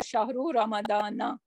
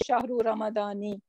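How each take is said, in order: First: The last word ends with an 'a' vowel. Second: The last word ends with an 'i' vowel. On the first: The speaker calls it right. "rather, It will take fatha" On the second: The speaker calls it wrong. "you're not going to say"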